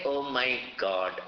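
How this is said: It is said with real, heartfelt wonder.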